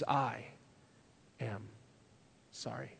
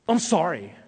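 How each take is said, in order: First: The apology is said slowly and deliberately. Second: The apology is said quickly and offhandedly. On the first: The person is truly repentant and humble. The speaker calls it right. "slowly and deliberately says" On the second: The person is not truly repentant. The speaker calls it wrong. "they say it like this"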